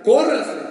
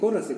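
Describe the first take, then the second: First: It is said loudly as an exclamation. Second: It is said calmly and flatly.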